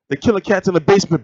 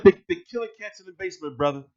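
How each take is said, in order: First: Said in the usual way. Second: Softer, faster mock of the guest; imitating his delivery. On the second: Copying how the guest told him, softer and quick. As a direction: rattle it off like he did. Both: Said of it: "you see how he went like".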